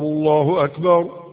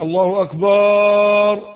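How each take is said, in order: First: The vowel after the b is kept short. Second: The vowel after the b is stretched long. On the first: The speaker calls it right. "هذا وصاب الله أكبر" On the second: The speaker calls it wrong. "أكبر ألف مدي بعد الباء اللي هو الطبل"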